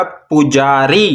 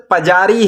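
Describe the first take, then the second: First: पुजारी opening on "pu", short u as in "put"; short u vowel. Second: पजारी opening on "pa" with short a; inherent short a. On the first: Teacher reads out the completed word, पुजारी with short u. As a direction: round the first vowel of पुजारी, pu-jaa-ree. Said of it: "छोटे ऊ या पेश का तलफ़ुज़ देना है". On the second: Teacher reads the word still lacking its sign, पजारी with short a. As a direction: say पजारी without any u, pa-jaa-ree. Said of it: "अभी तक ये लफ्ज़ पजारी है". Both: Shown as a demonstration.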